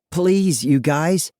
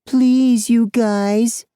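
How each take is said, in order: First: High-pitched plea; desperate, higher-pitched begging. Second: Mocking, very high squeaky voice; bully's falsetto mockery, drawn high and loud; squeaky girly mimicry. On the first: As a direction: plead with your tormentors, voice lifted. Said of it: "I beg". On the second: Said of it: "Fry mimics in a squeaky, girly voice". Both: A narrator's reading.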